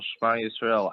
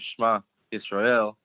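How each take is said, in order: First: The two words are run together without pause. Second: The two words are separated by a pause. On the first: "I said them like right, right one after the other" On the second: "I didn't say"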